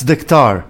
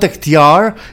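First: The name is said without a y sound. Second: The name is said with a y sound. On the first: The speaker calls it right. "we don't really pronounce the Y" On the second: The speaker calls it wrong. "It's not Diktar"

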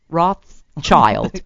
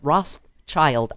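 First: No S sound is heard mid-name. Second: A lisped S sound is heard mid-name. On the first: The speaker calls it right. "The S is silent" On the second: The speaker calls it wrong. "I have a lisp when I say that"

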